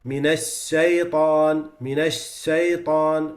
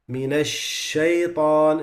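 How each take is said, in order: First: Shaitan with a whistling, s-like sh; slow shaitan, sh blurred toward s; whistling sheen. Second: Minash shaitan slowly with a clean sh; slow shaitan, clear sh; correct sheen. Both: Shown as a demonstration. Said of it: "becomes with some whistle".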